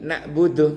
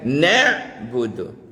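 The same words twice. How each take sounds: First: The consonant before b is a glottal stop. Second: The consonant before b is a pharyngeal ain. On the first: We linger for a long time. The speaker calls it wrong. "Tapi kalau alif yang mati" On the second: We worship. The speaker calls it right. "Mesti ini kan ain yang mati kan"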